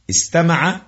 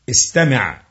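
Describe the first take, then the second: First: استمع as past "istama'a", open a vowels, pitched up; past-tense form. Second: استمع as command "istami'", i after the m, falling; imperative form. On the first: Teacher showing the five-letter past verb, past-tense pronunciation of استمع as "istama'a". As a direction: say استمع with "a" after the m, voice lifted. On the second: Teacher showing the verb's command form, imperative pronunciation of استمع as "istami'". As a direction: say استمع with short "i" and a closed final 'ayn. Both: Shown as a demonstration. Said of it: "الماضي الخماسي أو أمره".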